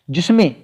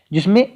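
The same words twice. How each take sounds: The two takes are said the same way.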